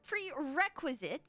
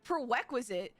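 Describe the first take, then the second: First: "prerequisite" slowly sounded out as "pre-REK-wizit"; careful pronunciation. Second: "prerequisite" tripped over as "pro-wek-wizit"; fumbled pronunciation. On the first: Careful retry after being teased. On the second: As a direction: say "prerequisite" with the first r sounds muddled into w. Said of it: "what, what was it?". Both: Real, not acted.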